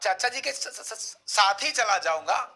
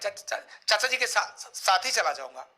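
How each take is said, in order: First: The phrase flows with no repeated syllables. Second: Syllables are repeated in a stutter.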